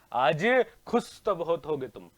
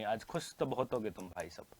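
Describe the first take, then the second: First: Slow, stretched movie-line delivery; drawn-out film dialogue. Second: Low, hushed movie-line delivery; film dialogue. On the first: Teacher repeats a film line to students, slow and theatrical. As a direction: draw the famous line out slowly, with voice. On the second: Teacher quotes a film line to students, low and hushed. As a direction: drop down deep and quiet for the famous line. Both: Acted.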